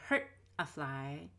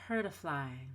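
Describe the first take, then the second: First: The T is clearly released, not smooth. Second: The T is a light, smooth tap. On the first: The speaker calls it wrong. "I didn't say hurt a fly" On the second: The speaker calls it right. "I said hurt a fly. That's very smooth"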